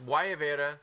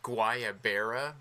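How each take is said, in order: First: The word is pronounced with Spanish-like sounds. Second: The word is pronounced with anglicized English sounds. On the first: The speaker calls it right. "That's how you pronounce it" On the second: The speaker calls it wrong.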